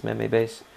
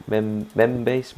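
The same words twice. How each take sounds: First: Meme base said meem, rhyming with seem; corrected pronunciation. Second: Mem base with a short e like them, slowly; mem, mem base stumbled, short e, hesitant; mispronounced. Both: Real, not acted. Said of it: "can mispronounce that as badly as me".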